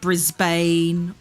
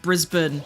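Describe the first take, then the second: First: The name is said in a non-Australian way. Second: The name is said in an Australian way. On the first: Outsiders mispronounce the city name. The speaker calls it wrong. "people be like" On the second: This is how locals say the city name. The speaker calls it right. "it's just Brisbane"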